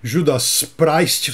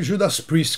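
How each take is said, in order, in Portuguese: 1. O nome é dito com sons do português brasileiro. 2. O nome é dito com sons do inglês. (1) "em vez de" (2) "que é o certo"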